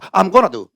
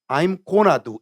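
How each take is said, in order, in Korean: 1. "I'm"은 짧은 소리로 줄어듭니다. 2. "I'm"은 완전하고 분명하게 발음됩니다. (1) "I'm이 아니고 Im이 더 많아" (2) "처음 나는 I'm을 외웠어요"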